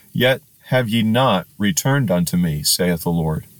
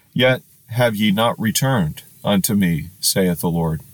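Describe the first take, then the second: Both takes have the same delivery.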